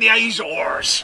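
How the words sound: It is said in a Cornish, pirate-like accent. "the Cornish will say"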